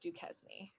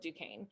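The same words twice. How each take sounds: First: The name is said as it is spelled. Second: The name is said the French way. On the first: The speaker calls it wrong. "It looks like Duquesne" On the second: The speaker calls it right. "you pronounce it Fort Duquesne"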